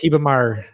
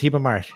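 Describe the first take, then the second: First: The final R is said the southern way. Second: The final R is said another regional way. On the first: "in the south, it's" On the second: "In some places, it's"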